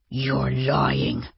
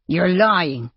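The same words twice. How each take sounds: First: Drawn-out, contained anger; through clenched teeth. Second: Quick, sharp accusation; snapped. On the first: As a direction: force it out through gritted teeth. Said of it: "said through clenched teeth". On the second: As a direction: snap back at him in mild anger. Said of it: "Jay snapped". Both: A narrator's reading.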